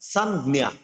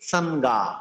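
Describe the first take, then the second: First: The second syllable has a palatal 'gya' sound. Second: The second syllable is a plain 'ga' sound. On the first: The speaker calls it right. "এটা হবে সানজ্ঞা" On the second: The speaker calls it wrong. "Sorry ভুল বলছি"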